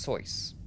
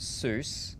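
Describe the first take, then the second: First: The vowel sounds like the one in choice. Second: The vowel sounds like the one in goose. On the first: The speaker calls it right. "because it's pronounced Sois" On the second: The speaker calls it wrong. "If you're pronouncing it Seuss"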